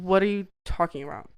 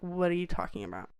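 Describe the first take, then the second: First: Said in the usual way. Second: Half-asleep, soft, rushed "What are you talking about?"; groggy half-asleep. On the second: Retold or imitated. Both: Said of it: "I was not ready for interaction".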